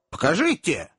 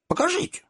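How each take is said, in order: First: Said in the usual way. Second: Second покажите leaps much higher, rising; impatient plea. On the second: A narrator's reading. Widow begging Tom to show her the letter, pitch leaping up. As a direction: push покажите up high like a begging child.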